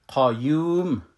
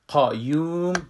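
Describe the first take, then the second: First: The first syllable has a heavy, full q sound. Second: The same.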